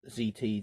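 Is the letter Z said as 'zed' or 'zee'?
zee. The letter Z is pronounced 'zee'. It follows how other reviewers say it. The speaker calls it wrong. "I'm so used to hearing other knife reviewers saying Z T"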